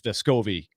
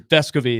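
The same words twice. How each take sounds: First: The stress falls on a later syllable. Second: The stress falls on the first syllable. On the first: The speaker calls it wrong. "I think it was Vescovi for a long, long time incorrectly" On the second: The speaker calls it right. "actually Vescovi is the uh, accent on the first syllable"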